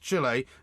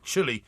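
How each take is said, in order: First: It does not sound like the word chilly. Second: It sounds like the word chilly, meaning cold. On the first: The speaker calls it right. "It is pronounced Chile" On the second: The speaker calls it wrong. "not chilly, like you're cold"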